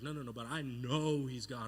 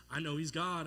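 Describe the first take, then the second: First: Insist, hitting the word "know"; stress on know. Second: Said in the usual way. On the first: Retold or imitated. Disciple arguing with the others, "know" firmly stressed.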